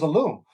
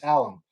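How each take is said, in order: First: The word is said with a Spanish pronunciation. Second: The word is said with an English pronunciation. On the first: This is how it was said while living in Latin America. "as if it was Spanish" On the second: This is how other people in the hobby say it. "That's how they used to say it"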